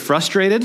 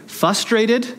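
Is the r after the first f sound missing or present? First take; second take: Present; Missing. First: The r after the first f is clearly sounded. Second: The r after the first f is left out. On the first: The speaker calls it right. "there's an R in that word" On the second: The speaker calls it wrong. "when I hear people say frustrated"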